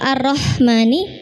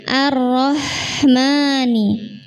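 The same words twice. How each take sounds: First: The sound is cut off abruptly at the end. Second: The sound flows on smoothly without a break. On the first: The speaker calls it wrong. "haknya kan terputus" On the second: The speaker calls it right. "Hak itu seharusnya mengalir dulu"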